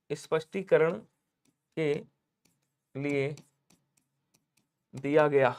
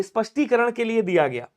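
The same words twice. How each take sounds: First: Slow word by word. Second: Said in the usual way. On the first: Shown as a demonstration.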